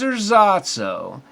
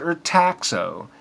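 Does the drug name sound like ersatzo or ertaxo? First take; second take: ersatzo; ertaxo. First: The word is said as ersatzo. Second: The word is said as ertaxo. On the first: The speaker calls it wrong. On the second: The speaker calls it right.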